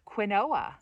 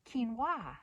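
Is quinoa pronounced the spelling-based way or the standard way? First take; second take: spelling-based; standard. First: It is pronounced as the spelling suggests. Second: It is pronounced the standard accepted way. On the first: The speaker is down to earth. The speaker calls it wrong. "I think it's fun to pronounce this wrong on purpose" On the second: The speaker is a bit uppity. The speaker calls it right. "we're supposed to say quinoa. It sounds kind of uppity"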